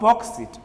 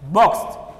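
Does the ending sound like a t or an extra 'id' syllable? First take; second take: id syllable; t. First: The ending is an extra id syllable. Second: The ending is a single t sound. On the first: The speaker calls it wrong. "not it" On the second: The speaker calls it right. "We add T sound at the end"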